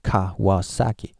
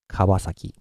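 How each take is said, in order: First: The syllables are separated by small gaps. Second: The syllables run together flat and continuous. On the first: "gaps between them" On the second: "just go flat and continuously"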